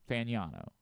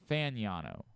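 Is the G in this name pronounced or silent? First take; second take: silent; silent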